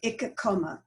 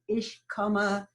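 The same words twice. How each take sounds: First: It is said in Berlin dialect. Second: It is said in standard German.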